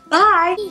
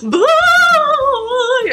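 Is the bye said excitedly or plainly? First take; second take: plain; excited. First: It is said plainly and calmly. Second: It is said loudly and excitedly.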